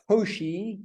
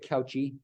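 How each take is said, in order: First: The name is said in a French-style pronunciation. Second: The name is said in an English-style pronunciation. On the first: The speaker calls it right. "We don't completely anglicize these names" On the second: The speaker calls it wrong. "Don't say Cauchy"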